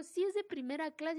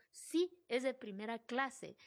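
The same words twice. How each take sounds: First: Higher and louder, fed up; exasperated insistence. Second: Slow, steady confirmation; calm firm reply. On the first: To the man tapping her shoulder, fed up and louder. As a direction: insist with rising annoyance. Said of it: "Y le digo". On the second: To the ladies at the first class line, calmly firm. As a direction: answer politely but firmly, taking time. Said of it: "Y yo". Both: Retold or imitated.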